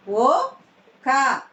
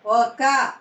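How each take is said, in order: First: "ఒక" split, rising ఒ, then క; "ఒక" in two separate syllables. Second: Said in the usual way. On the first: Shown as a demonstration. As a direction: sound out "ఒక" with a gap. Teacher sounds out syllables.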